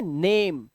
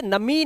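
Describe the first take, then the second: First: नेम as one syllable with long "ay"; correct reading of name. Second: नमी said as two syllables, "na-mee"; wrong reading of name. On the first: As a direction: say नेम with long A and silent final e. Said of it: "इसे क्या पढ़ते हैं?". (नेम, लंबा ए, आख़िरी ई silent) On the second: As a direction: read name as नमी, sounding the final e as "ee". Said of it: "इसे नमी नहीं पढ़ते". (नमी, आख़िरी ई बोलकर) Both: Shown as a demonstration.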